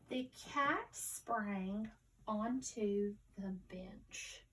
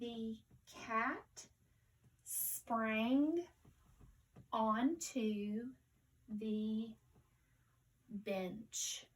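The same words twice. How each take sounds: First: The sentence is read quickly and smoothly. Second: The sentence is read slowly, word by word. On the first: "let's read it again more fluently" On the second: "let's read it slowly first"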